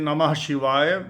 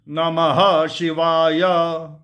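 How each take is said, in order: First: The first word is said as two syllables, na-mah. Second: The first word is said as three syllables, na-ma-ha. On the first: The speaker calls it wrong. "most people pronounce it Namah Shivaya, ... that is not the right uh, pronunciation" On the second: The speaker calls it right. "It's uh, either Namaha Shivaya"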